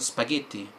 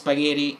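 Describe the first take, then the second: First: It is said with an Italian pronunciation. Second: It is said with an English pronunciation. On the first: "instead of spaghetti" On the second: "an English person or an Amer- American person, rather, pronounce spaghetti"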